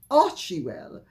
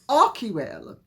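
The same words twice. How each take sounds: First: The 'ch' is said as a ch sound. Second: The 'ch' is said as a k sound. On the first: The speaker calls it wrong. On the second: The speaker calls it right.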